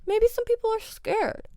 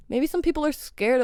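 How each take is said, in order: First: Very high, soft mock-scared voice; mock timid. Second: Said in the usual way. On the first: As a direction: tease the scaredy drivers in a tiny high voice. Mimics timid drivers, then repeats normally.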